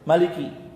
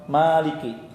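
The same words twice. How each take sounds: First: The first vowel is said short. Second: The first vowel is drawn out long. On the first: "dibacanya pendek"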